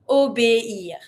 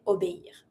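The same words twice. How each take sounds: First: "Obéir" syllable by syllable, "o-bé-ir"; separated vowels. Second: "obéir" quickly and softer, syllables run together; joined-up word. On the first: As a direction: keep é and ir distinct in "Obéir". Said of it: "Really dissociate the E". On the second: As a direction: say "obéir" as one flowing word. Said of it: "And then you say". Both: Shown as a demonstration.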